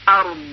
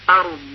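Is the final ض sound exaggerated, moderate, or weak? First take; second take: moderate; moderate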